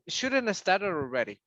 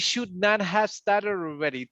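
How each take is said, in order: First: The words 'should not' are contracted together. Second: The words 'should not' are said fully. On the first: The speaker calls it right. "you make one one word here" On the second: The speaker calls it wrong. "It's it's not common to say"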